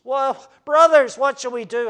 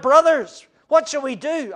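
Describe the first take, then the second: First: Loud, slowed cry of the crowd. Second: Loud high distressed cry. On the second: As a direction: cry out as a stricken crowd. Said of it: "cried out". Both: Acted.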